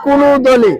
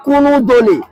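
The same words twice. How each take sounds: The two takes are said the same way.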